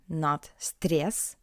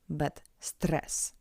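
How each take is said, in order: First: The r is soft, followed by a ye sound. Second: The r is hard, followed by a plain e. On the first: The speaker calls it wrong. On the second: The speaker calls it right. "we read ye like e, like in English. And that's why r is hard"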